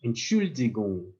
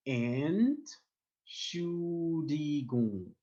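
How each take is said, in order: First: Said in the usual way. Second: Entschuldigung drawn out very slowly, each syllable separate; slow sounded-out word. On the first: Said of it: "So I'm going to say". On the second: Shown as a demonstration. Teacher slowing Entschuldigung down for learners to follow. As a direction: stretch Entschuldigung out so learners hear every sound. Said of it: "I know it's a bit hard to pronounce".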